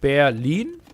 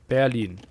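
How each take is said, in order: First: The stress falls mainly on the second syllable. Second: Both syllables are stressed about equally. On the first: The speaker calls it wrong. "more pronunciation on lean is wrong" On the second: The speaker calls it right. "I think even"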